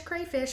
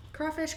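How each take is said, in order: First: Crayfish with an ay vowel like cray; softer crayfish, the ay others use; wrong pronunciation. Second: Crawfish with a broad aw like craw; right pronunciation. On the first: Vlogger mimicking others saying crayfish softly. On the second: Vlogger giving her own word for the creature, slow crawfish. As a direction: say crawfish slowly, aw vowel. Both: Shown as a demonstration. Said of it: "for people who pronounce it wrong".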